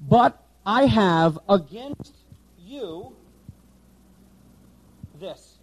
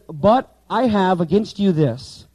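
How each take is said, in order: First: Slow word-by-word Greek order; slow literal reading. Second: Slow, deliberate word-by-word reading; slow literal reading. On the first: Teacher reading the Greek word order slowly. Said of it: "now watch this". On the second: Teacher showing class the Greek word order, slowly. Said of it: "Okay, now watch this". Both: Shown as a demonstration.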